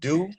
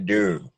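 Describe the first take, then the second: First: The word is said in a standard accent. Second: The word is said in a Baltimore accent. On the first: "instead of saying do" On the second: "they'll say do"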